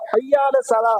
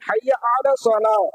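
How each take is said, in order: First: The word 'ala' is merged into 'hayya'. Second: The word 'ala' is said as its own syllables. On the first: The speaker calls it wrong. "ஹய்யால சலா கிடையாது" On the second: The speaker calls it right. "அலா அப்படிங்கிற வார்த்தையே சேர்த்துதான் நம்ம வந்து படிக்கணும்"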